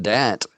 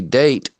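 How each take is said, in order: First: Dat said to rhyme with "cat"; short flat A in dat. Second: Date said as "dayt"; long A in date. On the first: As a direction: dat with the vowel of "hat". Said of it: "it would be date". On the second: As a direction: date rhymes with "late". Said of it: "not dat". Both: Shown as a demonstration.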